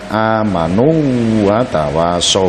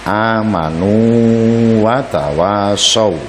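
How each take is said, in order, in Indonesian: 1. Bunyi w dirangkap tanpa dipanjangkan. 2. Vokal sebelum watawasau dibaca panjang.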